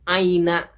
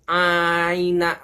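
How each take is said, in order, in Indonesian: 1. Vokal pembuka dibaca pendek. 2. Vokal pembuka dibaca panjang. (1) "Yang benar adalah disingkat" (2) "Bukan aina, bukan, salah itu"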